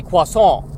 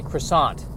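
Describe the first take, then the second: First: Croissant as kwa-SOH, nasal and without the t; French croissant. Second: Croissant with American r and final t; anglicized croissant. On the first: Comic on what he can't say, French croissant. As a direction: give croissant its French pronunciation. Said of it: "But I can't say croissant". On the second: Comic on what he must say to order, anglicized croissant. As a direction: say croissant as kruh-SAHNT. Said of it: "I have to say croissant". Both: Shown as a demonstration.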